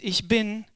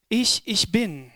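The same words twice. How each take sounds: First: Said in the usual way. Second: "Ich, ich bin" slowly, stressing the first Ich; emphatic doubled ICH. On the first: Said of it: "wörtlich". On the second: Shown as a demonstration. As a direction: set the first "Ich" apart with a weighty pause. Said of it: "eine besondere Betonung im Text". (betontes, gedehntes „Ich, ich bin“)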